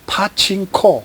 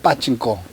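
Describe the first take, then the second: First: The word starts with a breathy, aspirated consonant. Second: The word starts with a tense, unaspirated consonant. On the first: This follows the original title. "어쨌든 원어대로 따라가야 되겠죠" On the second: This is how it is said in Japanese. "일본말로 빠찡꼬라 그러죠"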